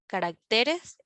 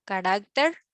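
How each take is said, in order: First: "caracteres" with the beat on "te"; contrasting plural "caracteres", weight moved to "te"; stress shifted to TE. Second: "Carácter" with the beat on "rác", tune rising; list-like rising "Carácter", stressed on "rác". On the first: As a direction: lean on the third syllable, ca-rac-TE-res, in "caracteres". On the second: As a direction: hit the middle syllable of "Carácter", ca-RÁC-ter. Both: Shown as a demonstration. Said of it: "de sílaba tónica al pluralizarse".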